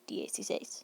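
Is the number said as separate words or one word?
one word. It is said as one merged word. "That's all one word"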